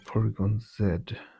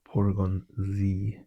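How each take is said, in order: First: The letter Z is said in a non-American way. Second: The letter Z is said the American way.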